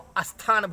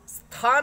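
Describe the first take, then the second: First: An extra vowel is added before the consonant cluster. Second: The word starts directly with the consonant cluster. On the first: The speaker calls it wrong. "प्रांतीय दोष होता है" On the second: The speaker calls it right. "स्थान है शब्द"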